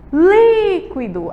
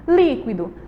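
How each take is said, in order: First: LÍQUIDO called loud and high, LÍ held long; stress on LÍ. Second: Said in the usual way. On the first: Shown as a demonstration. Teacher shows the antepenultimate is stressed, long high LÍ in líquido. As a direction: stretch the first syllable of "líquido". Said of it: "é a li". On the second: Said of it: "Toda sílaba tônica".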